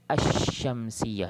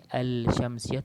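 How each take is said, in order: First: "Asyamsiyah" slow and loud, long doubled sh without L; silent lam. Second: "Al-Syamsiyah" slow, with a clear L before sh; mistaken sounded lam. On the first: Teacher correcting the error, "Asyamsiyah" with no L and long sh. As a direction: lean into a held sh in "Asyamsiyah". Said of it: "Jadi lam tu tak sebut". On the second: Teacher warning of the error, L pronounced in "Al-Syamsiyah". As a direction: wrongly voice the L in "Al-Syamsiyah". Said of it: "Siapa yang bunyi lam macam ni". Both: Shown as a demonstration.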